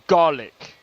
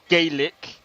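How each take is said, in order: First: The word is pronounced the Scottish way. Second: The word is pronounced the Irish way. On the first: "Scottish Gaelic, and it's called Gaelic" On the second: "Irish Gaelic is actually Gaelic"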